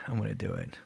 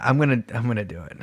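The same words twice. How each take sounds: First: Much softer, nervous self-pep; nervous quiet. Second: Said in the usual way. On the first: Real, not acted. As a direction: murmur it to yourself nervously. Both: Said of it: "performance anxiety".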